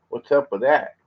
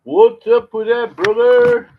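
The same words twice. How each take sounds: First: Said in the usual way. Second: High, loud, drawn-out call. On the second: Shown as a demonstration. Man calls the question again, high, loud and slow. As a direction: call it out much higher and louder, slowly. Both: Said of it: "repeats it louder".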